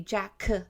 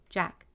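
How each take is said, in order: First: The final sound is strongly over-enunciated. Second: The final sound is soft, between G and K. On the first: The speaker calls it wrong. "that's not how we say it" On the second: The speaker calls it right. "try not to put so much emphasis on the word"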